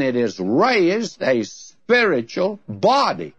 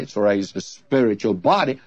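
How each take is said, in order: First: Slow build to a set-apart "body"; stress on BODY. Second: Low-pitched reading leaning on "spiritual"; stress on SPIRITUAL. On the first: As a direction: draw out the phrase and land firmly on "body". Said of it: "the emphasis is on body". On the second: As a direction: put the weight on the word "spiritual", not "body". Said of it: "he put the great emphasis on the spiritual". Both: Retold or imitated.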